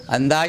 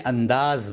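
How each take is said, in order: First: "انداز" as andaaj, ending in j; mispronounced final j. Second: "انداز" as andaaz, ending in z; careful andaaz for "انداز"; correct final z. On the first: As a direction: say "انداز" with j replacing z. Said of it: "انداز نہ بولیں". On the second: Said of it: "انداز بولیں". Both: Shown as a demonstration.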